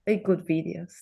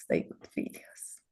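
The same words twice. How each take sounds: First: Said in the usual way. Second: "they good videos" whispered, almost no voice. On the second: Retold or imitated. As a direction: breathe it out as a grudging whisper. Repeated inner thought, whispered.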